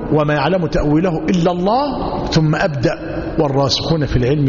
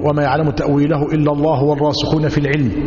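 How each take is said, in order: First: It stops after 'الله' before continuing. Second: It runs on without stopping after 'الله'. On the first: Only God knows its interpretation. "أم يقف" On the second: The learned ones also know its interpretation. "يجوز الوصل"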